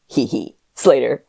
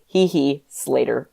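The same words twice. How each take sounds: First: Hee hee is voiced as a real giggle. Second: Hee hee is read out as plain words.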